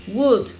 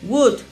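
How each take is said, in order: Both takes have the same delivery.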